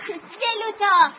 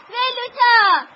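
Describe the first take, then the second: First: Long, slow call across the yard; slow calling out to Velota as she comes; drawn-out call. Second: Higher, louder call of the name; louder, higher second call to Velota; eager shout. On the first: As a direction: stretch the name out to call her. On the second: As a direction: shout her name happily. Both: Real, not acted. Kids run to greet Velota.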